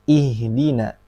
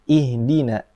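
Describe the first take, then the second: Both takes have the same delivery.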